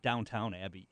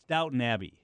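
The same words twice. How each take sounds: First: The first word sounds like 'downtown', with W. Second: The first word sounds like 'Downton', without W. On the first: The speaker calls it wrong. "not Downton Abbey" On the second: The speaker calls it right. "It's Downton Abbey"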